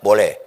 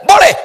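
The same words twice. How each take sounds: First: It is said softly, at half voice. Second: It is shouted loudly.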